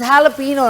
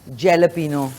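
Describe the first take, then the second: First: The word starts with an H sound. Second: The word starts with a J sound. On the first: The speaker calls it right. "It's हैलपिनो" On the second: The speaker calls it wrong. "जे को नहीं आपने बोलना"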